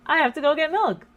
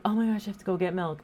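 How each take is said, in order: First: Louder and higher, insistent; exasperated mom. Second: Rushed mom. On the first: Mom insists to daughter she must get milk, louder and higher. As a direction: mom brushing off the remark, a bit louder. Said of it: "And I'd be like". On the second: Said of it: "And I go". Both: Retold or imitated.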